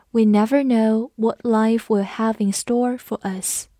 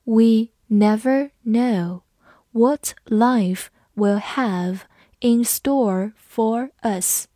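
First: Said in the usual way. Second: Slow, word by word for learners; teacher's slow dictation pace; slow read. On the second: Shown as a demonstration. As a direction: read it out slowly so students can follow. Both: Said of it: "我们慢读一遍".

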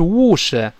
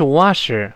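First: British "wash" with a rounded o; British accent. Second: American "wash" with an open ah; American accent. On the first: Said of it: "那英式发音是wash". (英式口音，wash 圆唇) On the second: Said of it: "美式发音是wash". (美式口音，wash 口型大) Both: Shown as a demonstration.

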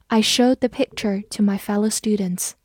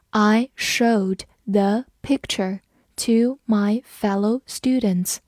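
First: Said in the usual way. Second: Slow, careful read of the sentence. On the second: Shown as a demonstration. Teacher reading slowly for students to follow. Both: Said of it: "我们慢读一遍".

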